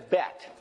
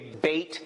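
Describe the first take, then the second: First: The vowel sounds like the one in 'bet'. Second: The vowel sounds like the one in 'bait'. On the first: This is the usual way to say it. "bet is usually what the, what I've heard" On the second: Some people say it this way. "or what some people say"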